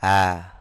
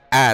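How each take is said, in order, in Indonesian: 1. Hamzah dilembutkan menjadi bunyi berdesah yang lembut. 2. Hamzah diucapkan dengan hentian glotis yang keras. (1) "tapi ha" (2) "Bukan a"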